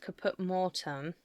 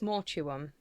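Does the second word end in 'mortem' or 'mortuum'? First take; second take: mortem; mortuum. First: The second word is said as 'mortem'. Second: The second word is said as 'mortuum'. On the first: The speaker calls it wrong. "I used to think it was Caput Mortem" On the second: The speaker calls it right. "but I think it's Mortuum"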